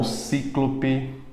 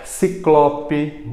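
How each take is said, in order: First: Cíclope mispronounced with stress on CÍ; stress on first syllable. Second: Ciclope slowly with stress on CLO; stress on middle syllable. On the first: Teacher rejecting the wrong form, stress on CÍ in cíclope. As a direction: say CÍ-clo-pe, first syllable strongest. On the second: Teacher modelling the right form, stress on CLO in ciclope. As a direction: say ci-CLO-pe, CLO strongest. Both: Shown as a demonstration. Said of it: "e não cíclope".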